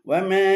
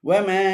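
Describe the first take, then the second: No difference in how they are said.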